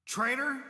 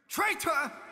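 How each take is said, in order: First: It is said in a stunned, shocked way. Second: It is said in a more angry way. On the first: The speaker cannot believe the accusation. "I just do kind of like a in shock" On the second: The speaker resents the accusation. "the second one is kind of like you're you're kind of more angry"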